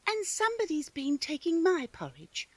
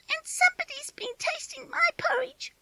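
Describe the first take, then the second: First: It is a middle-sized, medium-pitched voice. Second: It is a squealing, high little voice.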